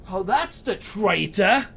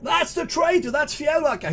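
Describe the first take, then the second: First: Slow, raised-pitch cry of recognition; dawning, higher-pitched denunciation; accusing cry. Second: High, shouted denunciation; lieutenant raising the alarm at the top of his voice; screamed accusation. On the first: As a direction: call out the accusation, drawn out. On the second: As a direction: scream it to your soldiers. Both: Acted. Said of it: "he screams to his soldiers".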